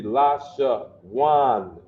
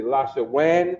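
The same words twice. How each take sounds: First: LA, SHA, WAN with WAN rhyming with wand minus the d. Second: LA, SHA, WAN with WAN said like "wen"; wrong vowel in WAN. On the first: Teacher showing the class the correct reading, open ah in WAN. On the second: Teacher asking why it doesn't say this, WAN said as "wen". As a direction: swap the ah of WAN for a short e. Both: Shown as a demonstration. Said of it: "our ah sound is always ah".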